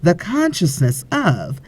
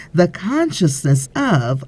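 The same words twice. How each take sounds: The two takes are said the same way.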